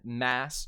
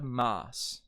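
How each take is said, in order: First: Said in the usual way. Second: MAS with an open British 'ah' vowel. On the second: Shown as a demonstration. Mass turns into mas.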